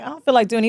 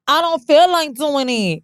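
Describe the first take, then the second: First: Said in the usual way. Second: Slow, drawn-out, higher mock Southern drawl; hammed-up Southern caricature, stretching the words; mock Southern stereotype. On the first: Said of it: "What if he was like". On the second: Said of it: "they normally go to this Southern ghetto".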